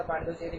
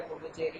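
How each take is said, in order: First: पांडुचेरी, opening with "paan" instead of "pu"; common mispronunciation. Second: पुडुचेरी, opening with a short "pu"; correct pronunciation. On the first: Teacher showing students how people commonly say it, mispronounced as पांडुचेरी. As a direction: say पांडुचेरी with a long nasal first syllable, "paan-du-che-ri". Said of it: "इसका pronunciation हमेशा पांडुचेरी करते". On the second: Teacher correcting students on the name, properly pronounced पुडुचेरी. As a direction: say पुडुचेरी as "pu-du-che-ri", no "paan" at the start. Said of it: "लेकिन ये भैया पुडुचेरी की है".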